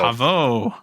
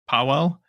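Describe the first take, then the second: First: The name ends with a vowel sound. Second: The name ends with an L sound. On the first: The speaker calls it right. "yes, perfect" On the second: The speaker calls it wrong. "I know that your name is not pronounced that way"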